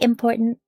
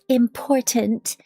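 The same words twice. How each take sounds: First: The T sounds are dropped. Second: The T sounds are pronounced clearly. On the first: "but I say important. ... There's no actual T's" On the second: "if you see the way it's spelled, important, um, there's T's"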